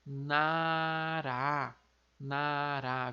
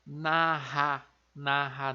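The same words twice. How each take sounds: First: "nará" com R de uma só batida, não "narra"; R simples entre vogais em "nará"; coreano nara. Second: "narra" com R forte e gutural, errado; pronúncia errada. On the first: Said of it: "Então fica". (pronúncia coreana de "nará", R simples) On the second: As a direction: diga "narra" com R carioca, o jeito errado. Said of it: "Vejam que não é". ("narra" com R forte, de propósito errado) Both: Shown as a demonstration.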